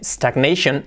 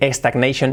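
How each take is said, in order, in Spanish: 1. La palabra empieza directamente con el sonido s. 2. Una vocal e extra va antes de la s. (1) "Sin la E" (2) "que dice stagnation, no"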